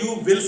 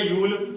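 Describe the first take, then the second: First: It is said as two full words. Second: It is squeezed into one short syllable. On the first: "हमें आदत पड़ी है यू विल सुनने की" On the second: "वो बोल गए यूल"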